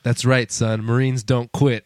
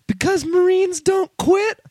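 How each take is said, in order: First: Low, slow hero voice for the last words; mock movie-hero gravity, addressed to a kid; stern Marine father. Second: Very high, slow mock child voice; little kid. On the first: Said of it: "And Aaron Eckhart's like". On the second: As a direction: recite it like a brave little boy. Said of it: "And the kid's like".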